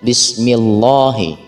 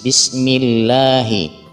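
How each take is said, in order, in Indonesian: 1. Bunyi L pada Allah itu tebal dan berat. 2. Bunyi L pada Allah itu tipis dan ringan. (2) "makanya lafaz Allahnya menjadi tipis"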